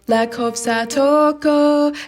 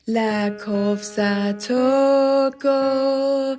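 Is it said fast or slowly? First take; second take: fast; slowly. First: It is said fast. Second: It is said slowly.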